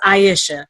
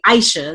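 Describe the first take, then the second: First: The name is said in the mother's pronunciation. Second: The name is said in the Philadelphia pronunciation. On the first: This is how the speaker's mother says the name. "Now she says Aisha" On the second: This is how people in Philadelphia say the name. "but living in Philly, they say Aisha"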